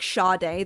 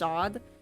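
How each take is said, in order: First: It is said with two syllables, like shah-day. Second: It is said as one syllable, like sod. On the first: It refers to the singer. "Like [name], the girl?" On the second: It refers to the Marquis. "it's pronounced Sod"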